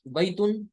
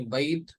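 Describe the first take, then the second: First: बैतुन with the final -un sounded; full case ending. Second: बैत ending on a bare t; pausal form. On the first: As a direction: read बैतुन out as written, tanween included. (बैतुन, तनवीन के साथ) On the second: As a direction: stop on the last letter of बैत. (बैत, आख़िर में वक्फ) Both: Shown as a demonstration. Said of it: "उसका तलफ़ुज़ नहीं करना".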